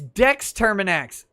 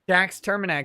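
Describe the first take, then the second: First: The first name is said like Dex. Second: The first name is said like Jax. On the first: The speaker calls it right. "It should be Dex Terminax" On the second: The speaker calls it wrong. "Oh, I did!"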